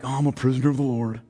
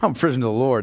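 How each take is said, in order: First: It sounds self-pitying and complaining. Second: It sounds proud and glad.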